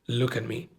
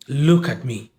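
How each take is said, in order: First: Soft mock comfort. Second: Said in the usual way. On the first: Friend at the bedside, softly consoling the widow. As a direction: Look at me said quietly and gently. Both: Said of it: "and goes".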